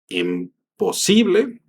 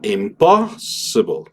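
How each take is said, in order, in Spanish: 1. El acento está en la sílaba si. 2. El acento está en la sílaba pos. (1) "en donde la sílaba tónica está en la sí" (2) "una la pongo en el pos"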